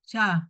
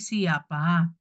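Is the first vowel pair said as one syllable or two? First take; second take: one syllable; two syllables. First: The first vowels glide together as one syllable. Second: The first vowels are split into two syllables. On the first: The speaker calls it wrong. "bukan syah" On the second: The speaker calls it right. "tetapi siapa"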